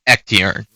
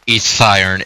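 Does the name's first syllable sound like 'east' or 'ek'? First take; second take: ek; east. First: The first syllable sounds like 'ek'. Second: The first syllable sounds like 'east'. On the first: The speaker calls it right. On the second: The speaker calls it wrong. "It's not"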